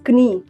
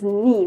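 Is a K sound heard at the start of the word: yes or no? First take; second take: yes; no. First: The word begins with a clear K sound. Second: The word begins directly with an N sound. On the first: The speaker calls it wrong. "We don't read it as कनी" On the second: The speaker calls it right. "We will pronounce it as नी"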